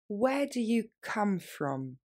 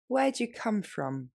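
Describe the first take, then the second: First: Slow, deliberate model phrase; slowly. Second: Brisker, everyday pace; natural speed. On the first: Teacher slowing down for French students. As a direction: stretch each word out for learners. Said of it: "plus lentement". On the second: Teacher modeling natural speed for learners. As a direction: say it the way a native would. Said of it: "Et plus rapidement, plus naturellement". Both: Shown as a demonstration.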